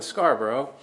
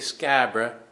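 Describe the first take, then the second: First: The name is said with all its syllables. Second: The name is clipped into two short syllables.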